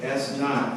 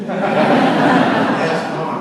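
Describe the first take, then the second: First: Said in the usual way. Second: Loud, laughing attempt at a Boston accent; hammed-up Boston accent, much louder, laughing through it. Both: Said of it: "you can't do it in the Boston accent".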